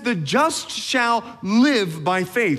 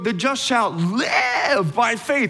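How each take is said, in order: First: The word live is said plainly. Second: The word live is said with enthusiasm.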